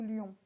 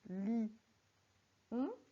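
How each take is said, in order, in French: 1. Le mot se dit en une seule syllabe. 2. Le mot est découpé en deux syllabes.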